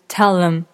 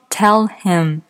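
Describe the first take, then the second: First: The h in him is dropped and linked. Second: The h in him is clearly pronounced.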